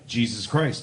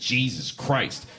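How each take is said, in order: First: It is said calmly and reverently. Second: It is said with an exasperated tone.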